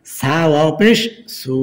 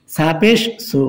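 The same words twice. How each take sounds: First: Final সু with a long held vowel; one-alif stretch. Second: Final সু with a short, quick vowel. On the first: Teacher showing learners the stretch, long final সু. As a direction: draw out the last সু. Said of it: "এক আলিফ টান হবে". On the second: Teacher showing learners the quick reading, short final সু. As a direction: cut the last সু short. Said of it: "সু তাড়াতাড়ি হবে". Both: Shown as a demonstration.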